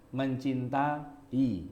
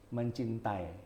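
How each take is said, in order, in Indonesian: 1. 'a' dan 'i' di akhir itu suku kata yang terpisah. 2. 'ai' di akhir itu satu vokal luncur. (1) "nah itu vokal rangkap" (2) "Kita nggak bilang ... enggak"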